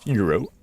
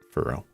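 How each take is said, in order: First: The word is pronounced with an odd, exaggerated flourish. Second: The word is pronounced plainly, in an ordinary way. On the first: The speaker calls it wrong. "Why am I pronouncing it so weird?" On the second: The speaker calls it right. "It's just furrow"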